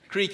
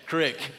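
First: The vowel is a long ee sound. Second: It is said crick, the Middle Georgia way.

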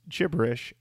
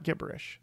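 First: The word begins with a soft J-like G. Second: The word begins with a hard G sound. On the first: The speaker calls it right. "gibberish is pronounced with a soft G sound" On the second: The speaker calls it wrong. "I have been saying gibberish wrong my whole life"

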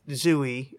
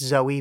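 First: The first vowel sounds like 'oo'. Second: The first vowel sounds like 'oh'. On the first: The speaker calls it wrong. "I know I say that wrong" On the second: The speaker calls it right. "it's Zoe"

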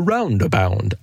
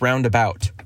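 First: The word ends with a 'bound' sound. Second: The word ends with a 'bout' sound. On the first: The speaker calls it wrong. "he kept saying roundabound" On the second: The speaker calls it right. "Can you it's roundabout"

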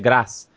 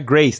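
First: The word is pronounced the French way. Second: The word is pronounced the English way. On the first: The speaker calls it right. "É grace. Porque vem do francês e não do inglês" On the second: The speaker calls it wrong. "Mas não é grace"

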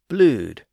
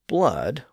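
First: The vowel is a long 'oo' sound. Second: The vowel is a short 'uh' sound. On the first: This is the early 1500s pronunciation. "In the early 1500s, it had become blued" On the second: This is the modern pronunciation. "today we say blood with a completely different vowel sound"

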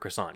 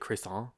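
First: It is pronounced the English way. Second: It is pronounced the French way.

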